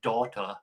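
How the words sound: The word is said in a New Jersey accent. "they always pronounce it daughter"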